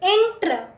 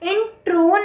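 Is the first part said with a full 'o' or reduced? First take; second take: reduced; full. First: The first part ends with a reduced, weak vowel. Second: The first part ends in a full 'o' vowel. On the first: The speaker calls it right. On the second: The speaker calls it wrong.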